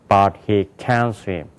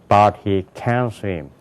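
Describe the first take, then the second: No difference in how they are said.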